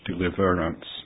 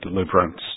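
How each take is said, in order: First: The middle vowel is kept, giving four syllables. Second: The middle vowel is dropped, giving three syllables. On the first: The speaker calls it wrong. "not deliverance" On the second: The speaker calls it right. "drop the E in the middle of deliverance. So it's like that"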